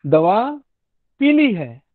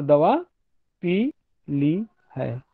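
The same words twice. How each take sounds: First: पी ली run together without a break; पीली as one word. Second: Slow, पी and ली split by a clear pause; pause inside पी ली. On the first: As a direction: join पी ली into one word, the colour yellow. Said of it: "जब मैं पीली बोल रहा हूँ". (पी ली बिना रुके, एक शब्द में) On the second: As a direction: break after पी, then ली है separately. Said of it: "संहिता या जंक्चर". (पी और ली के बीच विराम) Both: Shown as a demonstration.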